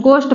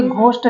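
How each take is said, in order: First: गोष्ठ opening on a plain unaspirated G; silent H. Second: घोष्ठ with an H puffed after G; wrong aspirated G. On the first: Teacher gives learners the correct reading, गोष्ठ with plain G. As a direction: keep breath out of the G in गोष्ठ. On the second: Teacher shows what not to say, घोष्ठ with aspirated G. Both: Shown as a demonstration. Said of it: "घोष्ठ नहीं".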